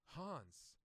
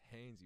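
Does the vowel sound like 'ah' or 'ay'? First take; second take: ah; ay. First: The word is said with an 'ah' vowel. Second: The word is said with an 'ay' vowel. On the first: Someone unfamiliar with the word misreads it. The speaker calls it wrong. "he's never heard anybody pronounce that word" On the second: This is the usual way the name is said. The speaker calls it right. "it's Hanes, you idiot"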